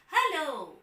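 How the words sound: It is said on a high, bright pitch. The speaker is excited. "a high tone shows excitement"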